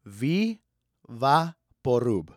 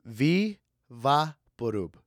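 First: "Vivaporub" said slowly in Spanish sounds, vee-vah-po-roob; drawn out "Vivaporub" the way mom said it; "Vivaporub" pronounced in Spanish, stretched slow; mom's Vivaporub. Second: Slow Spanish "Vivaporub", vee-vah-po-roo; "Vivaporub" drawn out once more in Spanish sounds; mom's Vivaporub again. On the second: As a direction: repeat "Vivaporub" slowly as mom did. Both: Retold or imitated. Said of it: "my mother called Vicks".

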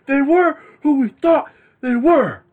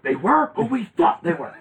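First: Much higher, louder, slow yell; furious coach rant. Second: A hint of a fuming coach; mock angry coach. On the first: Retold or imitated. Cohost reenacts the coach's furious rant, high and slow. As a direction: scream it at the press. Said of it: "He was pissed". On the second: Host quotes Dennis Green's rant, a touch higher. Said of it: "he's like".

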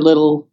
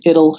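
First: Said in the usual way. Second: Put-on "ittle" with the l dropped, baby talk; lisping baby "ittle". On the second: Shown as a demonstration. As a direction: say "ittle" like a toddler, no first l. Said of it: "for little".

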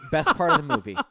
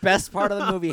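First: Loud, high delighted praise; gushing. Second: Best hit loud and high; emphatic repeat. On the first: Podcaster raving to Jeff about the talk show scene, loud and delighted. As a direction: rave about it. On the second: Podcaster insisting to Jeff it was the best part, stressing Best. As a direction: lean hard on Best. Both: Real, not acted.

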